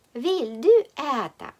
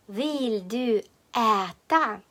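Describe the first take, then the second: First: Said in the usual way. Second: "Vill du äta" slowly, each word apart. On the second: Shown as a demonstration. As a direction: dictate "Vill du äta" with drawn-out vowels. New phrase dictated slowly. («Vill du äta» повільно, по словах)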